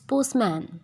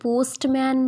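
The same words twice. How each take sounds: First: The t is silent before the m. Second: The t is sounded before the m. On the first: The speaker calls it right. "It's पोस्टमैन" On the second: The speaker calls it wrong. "ये पोस्टमैन नहीं होता"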